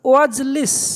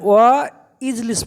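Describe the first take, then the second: First: The two words run together as one word. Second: The two words are said separately with a break. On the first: The speaker calls it right. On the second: The speaker calls it wrong.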